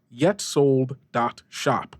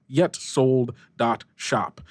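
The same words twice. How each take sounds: The two takes are said the same way.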